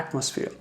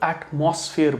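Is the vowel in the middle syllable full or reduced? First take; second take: reduced; full. First: The middle vowel is reduced, not a full 'o'. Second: The middle vowel is a full 'o' sound. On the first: The speaker calls it right. "ये ओ हम नहीं बोलते, हम एटमॉस्फेयर" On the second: The speaker calls it wrong. "इसको कई लोग एटमॉस्फेयर बोलते हैं"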